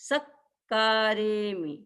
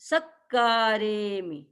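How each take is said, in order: No difference in how they are said.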